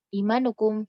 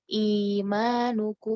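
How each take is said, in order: First: The vowel is kept short, not drawn out. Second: The vowel is drawn out and held long. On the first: The speaker calls it wrong. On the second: The speaker calls it right.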